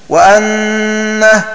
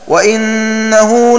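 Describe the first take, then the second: First: The glottal stop is followed by an a vowel. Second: The glottal stop is followed by an i vowel. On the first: "بفتحها" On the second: "بكسر الهمزة"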